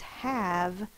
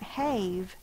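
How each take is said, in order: First: The vowel is a short A sound. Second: The vowel is a long A sound. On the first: The speaker calls it right. "it's have. ... The vowel is short" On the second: The speaker calls it wrong. "does not make that say its long sound A. It's not have"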